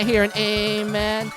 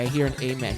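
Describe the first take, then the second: First: It is said loudly and excitedly. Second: It is said quietly and politely. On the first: Church is fun, like a party. "more excited. It's more upbeat" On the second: Church is solemn and reserved. "it's more like quiet, more polite"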